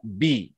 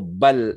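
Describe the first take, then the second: First: The b is followed by an 'i' vowel. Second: The b is followed by an 'a' vowel. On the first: The speaker calls it right. "harus dibaca bi" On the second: The speaker calls it wrong. "atau bal"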